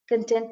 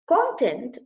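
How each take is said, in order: First: The stress is on the second syllable. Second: The stress is on the first syllable. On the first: It means happy or satisfied. "Content means happy, sated, satisfied" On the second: It means subject matter. "means subject matter"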